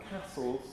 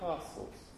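First: The vowel is short, northern English style. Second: The vowel is long, southern British style.

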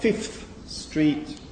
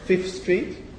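First: The first word's final consonant is pronounced. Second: The first word's final consonant is dropped. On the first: The speaker calls it wrong. "not Fifth Street" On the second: The speaker calls it right. "dropping certain consonants, particularly word final ones"

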